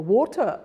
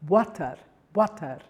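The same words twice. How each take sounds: First: Said in the usual way. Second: Water with a thick W and open A, "wah-tar"; heavy Spanish W. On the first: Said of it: "they'd say wat". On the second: Shown as a demonstration. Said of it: "it's very heavy".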